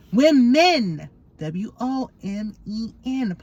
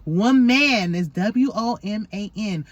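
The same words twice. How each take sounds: First: "Women" overpronounced with a long MEN, spelled out; teaching "women". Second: "Woman" said slowly with a full MAN, then spelled; "Woman" overpronounced as wo-MAN, letters spaced out; teaching "woman". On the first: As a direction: hit "Women" hard as wim-MEN, then give the letters. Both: Shown as a demonstration. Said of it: "know the difference between woman and women".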